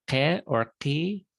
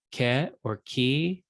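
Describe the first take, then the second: First: "ke or ki" slowly, each K popped in the back of the throat; guttural Q. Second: Said in the usual way. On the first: Shown as a demonstration. Teacher reading a sign chart to students, "ke or ki" with guttural Q. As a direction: make both Ks in "ke or ki" guttural Semitic Qs. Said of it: "kind of a pop in the back of the throat". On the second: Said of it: "common to Semitic languages, but we don't".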